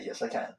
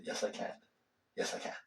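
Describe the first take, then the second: First: Said in the usual way. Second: Fading to a soft whisper; whispered affirmation. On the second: Shown as a demonstration. Teacher shows students how to whisper a self-affirmation. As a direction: whisper it to yourself, letting it settle. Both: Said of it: "you just say".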